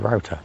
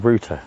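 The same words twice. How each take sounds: First: The word is pronounced the American way. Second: The word is pronounced the British way. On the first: "In America, you say router" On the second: "in the U K, we say router"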